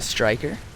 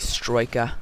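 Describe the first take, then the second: First: It is said in a plain American accent. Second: It is said in an imitated British accent.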